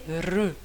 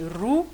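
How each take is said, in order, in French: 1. La voyelle se prononce avec un son intermédiaire. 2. La voyelle se prononce avec un son u arrondi. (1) "c'est ni ru ni ri, elle est re. Donc c'est une chose entre les deux" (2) "certaines personnes vont prononcer ru"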